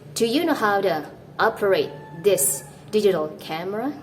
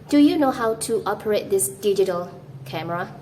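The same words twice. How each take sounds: First: The word to is reduced to a quick t. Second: The word to is said in full, like too. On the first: The speaker calls it right. "you want to sound like this" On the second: The speaker calls it wrong. "you don't want to sound like this"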